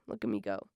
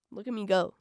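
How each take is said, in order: First: Much lower, mock-proud boast; goofy deep voice. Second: Said in the usual way. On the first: Shown as a demonstration. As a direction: drop into a deep goofy brag.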